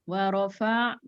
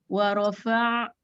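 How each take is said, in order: Both takes have the same delivery.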